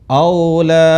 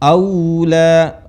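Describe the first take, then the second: First: The first vowel sounds like o. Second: The first vowel sounds like u. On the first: The speaker calls it wrong. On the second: The speaker calls it right. "aunya dipakai u"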